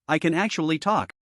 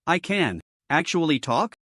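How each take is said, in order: First: "I can actually talk." settling down on "talk"; falling statement. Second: "I can actually talk?" rising in disbelief, slower; surprised question. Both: A narrator's reading. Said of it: "Li Chen was a bit surprised".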